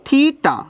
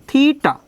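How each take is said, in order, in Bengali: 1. প্রথম স্বরধ্বনিটি 'see'-এর 'ee'-র মতো উচ্চারিত হয়। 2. প্রথম স্বরধ্বনিটি 'see'-এর 'ee'-র মতো উচ্চারিত হয়।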